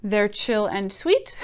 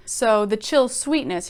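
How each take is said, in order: First: They're chill and sweet said slowly, ending on a rise; slow flat rewrite. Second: Chill sweetness said slowly, each word weighed; slow, savoring. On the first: Teacher mocking the plain rewrite for students, slow. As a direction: slowly offer the plainer version. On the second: Teacher savoring the poet's phrase for students, slow. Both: Shown as a demonstration. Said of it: "he doesn't say".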